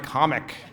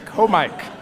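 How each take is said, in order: First: The word is said as ordinary 'comic'. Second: The word is said as 'co' plus 'Mike'. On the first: The speaker calls it wrong. "Stop mispronouncing them like comic" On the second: The speaker calls it right. "It's a co-Mike. That's the point"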